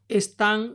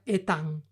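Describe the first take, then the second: First: The s after the first vowel is pronounced. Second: The s after the first vowel is dropped.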